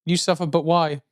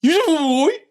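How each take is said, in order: First: Said in the usual way. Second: Put-on screamed high in a Brummie accent; Brummie grindcore scream. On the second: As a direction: yell it like a Brummie metal singer. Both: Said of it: "In a Brummie accent".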